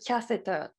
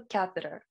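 First: It is said with a British accent. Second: It is said with an American accent. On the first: "イギリス英語だともう少しcatheter みたいな発音になる" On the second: "アメリカだとcatheter"

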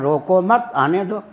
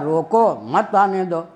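First: The pause comes right after 'mat'. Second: The pause comes right after 'roko'.

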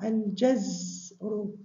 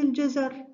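First: The z is unvoweled, joined straight to r. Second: There is a vowel between z and r. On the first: It names the ebb of the tide. The speaker calls it right. "انظري إلى الزاي ساكنة، منطق الجيم مع الزاي كمقطع" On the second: It names a vegetable, carrots. The speaker calls it wrong. "لا تقولين الجزر، الجزر هنا نوع من الخضروات"

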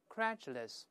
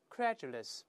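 First: The middle consonant is a j-like sound. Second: The same.

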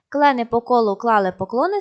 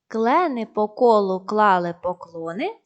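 First: It is read at a faster pace. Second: It is read at a slow pace. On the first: "А далі поступово пришвидшуємо темп" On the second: "Спочатку читаємо повільно"

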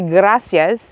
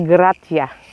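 First: The word ends with an s sound. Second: The word ends without an s sound.

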